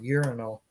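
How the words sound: It is said with an American pronunciation. "here in America we say it's a urinal"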